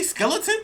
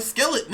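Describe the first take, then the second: First: "skeleton" with its full ending, final n sounded; pointedly complete the word "skeleton" through the n; correct skeleton. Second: "skeleton" with the ending dropped, like "skelet"; mock his cut-short "skeleton", swallowing the final n; mispronounced skeleton. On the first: Shown as a demonstration. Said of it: "can you say skeleton". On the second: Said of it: "like, not saying skeleton".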